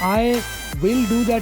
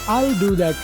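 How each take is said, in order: First: Each word is said separately. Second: The words run together smoothly.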